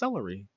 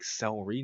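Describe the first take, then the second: First: Every syllable of the word is pronounced. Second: One syllable of the word is left out. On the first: The speaker calls it right. "No, it's celery" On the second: The speaker calls it wrong. "You just forgot a syllable there"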